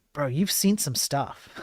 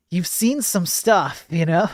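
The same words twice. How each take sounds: First: Said in the usual way. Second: Real laugh breaking through, slower and higher; amused, laughing repeat of the joke. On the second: Real, not acted. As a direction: chuckle your way through the repeat.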